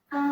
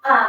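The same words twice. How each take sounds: First: The pitch stays high and level throughout. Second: The pitch dips down and then rises again. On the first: "Isyong atau nada satu itu dibacanya tinggi datar" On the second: "dari nada tinggi dijatuhin ke nada rendah, dinaikin lagi"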